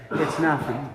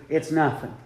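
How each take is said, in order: Both takes have the same delivery.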